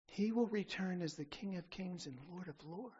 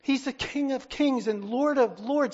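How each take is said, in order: First: Quieter proclamation. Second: King of Kings and Lord of Lords boomed out loud; full-voiced preaching climax; loud proclamation. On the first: Second King of Kings, held back. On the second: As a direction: thunder the title. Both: Real, not acted.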